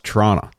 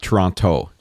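First: It is said the way local people say it. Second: It is said the way outsiders say it. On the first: The speaker is from the area. The speaker calls it right. "no, it's Toronto" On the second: The speaker is not from the area. The speaker calls it wrong. "It's not Toronto"

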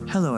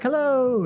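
First: It is said in a calm, low-key voice. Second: It is said in an excited, lively voice.

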